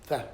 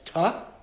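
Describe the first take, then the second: First: The sound is a soft th. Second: The sound is a hard t. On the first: This is the older Yemenite pronunciation. "They pronounce the tough without a without a dot as th" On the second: This is the common modern pronunciation. "we pronounce tough as tuh"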